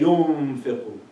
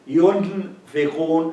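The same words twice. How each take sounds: First: The middle n sound fades and nearly disappears. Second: The middle n sound is pronounced fully and clearly. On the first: The speaker calls it right. "I say yunfiqun. ... The sound of the noon disappears" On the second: The speaker calls it wrong. "I don't say yunfiqun"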